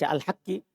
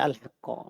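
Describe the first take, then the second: First: The word ends with an i vowel. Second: The word ends with an a vowel. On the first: The word describes or renames the one before it. "Kalau begitu dibaca al-haqqi" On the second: The word is the object of the verb. "Itu kalau dibaca al-haqqo"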